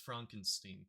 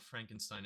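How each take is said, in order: First: The name is said the character's way. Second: The name is said the usual way. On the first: The speaker calls it right. "he says it's Frankenstein" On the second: The speaker calls it wrong. "It's not Frankenstein"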